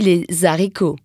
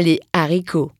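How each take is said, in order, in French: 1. Un son z fait la liaison entre « les » et « haricots ». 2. Aucun son z ne fait la liaison entre « les » et « haricots ». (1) "je n'ai pas dit les haricots" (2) "mais bien les haricots"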